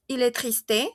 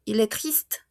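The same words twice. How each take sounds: First: Questioning "triste" with an added "é" at the end; wrong final E sounded. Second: "triste" ending on the consonants st, e silent; silent final E. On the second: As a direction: say "triste" as one syllable, "treest". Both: Shown as a demonstration. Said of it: "No tiene tilde".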